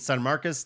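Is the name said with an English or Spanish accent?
English. The name is said with an English accent.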